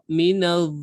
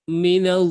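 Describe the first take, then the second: No difference in how they are said.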